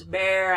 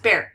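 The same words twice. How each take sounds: First: "bear" with its vowel held unnaturally long; strange stretched pronunciation. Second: Said in the usual way. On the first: Shown as a demonstration. Teacher making it sound strange for students, stretched vowel. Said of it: "I'm, like, making it sound strange". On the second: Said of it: "'cause we say it really fast".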